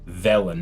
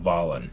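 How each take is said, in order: First: The first vowel sounds like the e in 'bet'. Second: The first vowel sounds like the a in 'pal'. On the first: The speaker calls it right. "I think it's supposed to be Velen" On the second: The speaker calls it wrong. "not Valen. ... I keep messing it up"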